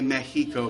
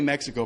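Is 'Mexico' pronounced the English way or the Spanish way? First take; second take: Spanish; English. First: It is pronounced the Spanish way. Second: It is pronounced the English way. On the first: The speaker is in a Spanish-speaking country. "Once you get over the border, you can say Mexico" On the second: The speaker is speaking English in America. "But until then, it better be Mexico"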